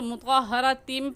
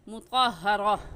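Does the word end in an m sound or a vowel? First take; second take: m sound; vowel. First: The word ends with a nasal m sound. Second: The word ends with a long a vowel. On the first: The reading continues into the next word. "मिलाकर पढ़ेंगे तो मुतक़हरतिम" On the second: The reading stops after this word. "वक़फ़ करेंगे तो मुतक़हरा"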